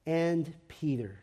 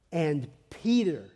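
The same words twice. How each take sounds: First: Slow, understated "And Peter"; pensive repetition. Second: Slow "And", then PETER punched; stress on PETER. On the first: Preacher dwells on the angel naming Peter, slow and hushed. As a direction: let "And Peter" sink in quietly. Dwells on the phrase, softly first. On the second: Preacher repeats the angel's hopeful message, stressing "Peter". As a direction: lean hard on the name "Peter". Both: A narrator's reading.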